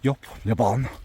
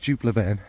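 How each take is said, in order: First: The first word starts with a Y sound. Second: The first word starts with a D sound. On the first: The speaker calls it wrong. "you weirdos who pronounce dupe in an over weird way and say it's yup" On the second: The speaker calls it right. "It's Dupe Le Bon"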